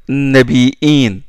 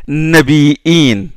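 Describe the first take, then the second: No difference in how they are said.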